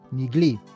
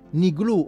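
First: The word ends with an 'ee' vowel. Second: The word ends with an 'oo' vowel. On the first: "gli ebrei romani ... la U finale la pronunciano I" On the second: "vedete come prima c'è una U finale?"

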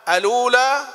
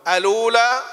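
The two takes are said the same way.

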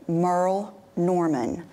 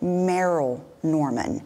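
First: The first name sounds like 'Merle'. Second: The first name sounds like 'Meryl'. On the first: The speaker calls it right. "let me say it right" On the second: The speaker calls it wrong. "but I said Meryl Norman"

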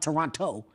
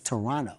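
First: The second t is clearly pronounced. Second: The second t is dropped. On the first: The speaker calls it wrong. "It's not Toronto" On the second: The speaker calls it right. "you don't pronounce the T"

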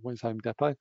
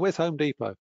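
First: Depot is pronounced with a British accent. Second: Depot is pronounced with an American accent. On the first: This way of saying it sounds odd to locals. The speaker calls it wrong. "Not where's Home Depot, because people look at me as if I'm odd" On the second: This is how the name is said in the USA. The speaker calls it right. "I always call it Depot when I'm in the USA"

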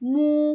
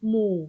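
First: The syllable has a level mid tone. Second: The syllable has a low tone. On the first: "สามัญ" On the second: "เอก"

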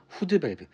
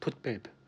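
First: The first word sounds like 'hudeu', with an added vowel. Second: The first word sounds like 'put', ending in a consonant. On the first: This is the older Japanese-derived form of the term. The speaker calls it wrong. "한글로 적혀 있을 때는 후드 밸브" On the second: This follows the English pronunciation of the term. The speaker calls it right. "영어로 발음하게 되면 풋 밸브입니다"

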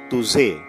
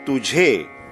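First: The middle consonant is a 'z' sound. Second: The middle consonant is an aspirated 'jh' sound. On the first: The speaker calls it wrong. "not tuze" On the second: The speaker calls it right. "We say tujhe"

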